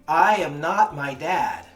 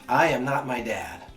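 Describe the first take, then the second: First: It is yelled at full volume. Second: It is said at normal speaking volume.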